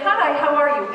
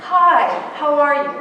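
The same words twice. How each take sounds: First: Quick, lightly raised passing greeting; just being polite. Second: Louder, deliberate hello that waits for an answer; genuinely interested greeting. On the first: New Yorker to colleague before moving on, perfunctory politeness. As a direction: say it in passing, as mere courtesy. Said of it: "We're just being polite". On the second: Stopping to look an adult in the eye, interested. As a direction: greet as if you truly want to know. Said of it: "looked into the eye of that adult". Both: Acted.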